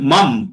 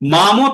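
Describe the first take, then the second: First: The final m has no vowel after it. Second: The final m is followed by a vowel. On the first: "অটাকে আমি বার করে নিলাম" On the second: "মাম তাহলে পুরো ম হয়ে গেল"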